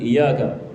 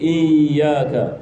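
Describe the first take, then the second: First: The y sound is said single. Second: The y sound is held double. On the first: The speaker calls it wrong. "bukan ... Ini tidak sah sebab kita menjatuhkan satu huruf" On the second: The speaker calls it right. "menghidupkan tasydid"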